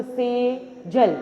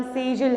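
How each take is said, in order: First: "Sejal" slowly as से, pause, जल; two-syllable breakdown of "Sejal"; split into syllables. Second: Said in the usual way. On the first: Shown as a demonstration. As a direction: divide "Sejal" into two separate beats. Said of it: "कितने syllables में मैंने उसको बांटा?". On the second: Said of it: "जैसे मेरा नाम सेजल है".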